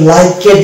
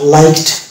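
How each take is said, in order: First: The ending is said as an extra syllable. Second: The ending joins the word with no extra syllable. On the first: The speaker calls it wrong. "এটা কিন্তু লাইকেড না" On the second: The speaker calls it right. "এখানেও কিন্তু এই দেখছি silent"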